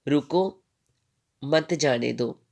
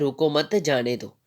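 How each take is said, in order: First: There is a pause after रुको. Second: There is a pause after मत.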